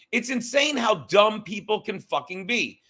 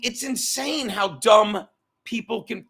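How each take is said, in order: First: Exasperated shout. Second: Said in the usual way. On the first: Real, not acted. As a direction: shout it out in disbelief.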